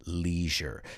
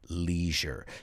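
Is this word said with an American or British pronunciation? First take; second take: American; American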